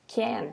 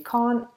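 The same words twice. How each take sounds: First: It is said in an American accent. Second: It is said in a British accent. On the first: "even the way you say can't" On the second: "in British English would be to say can't"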